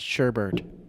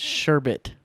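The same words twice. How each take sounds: First: The second syllable has an R sound. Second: The second syllable has no R sound. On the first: The speaker calls it wrong. "not sherbet" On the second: The speaker calls it right. "It's sherbet, there's no R in sherbet"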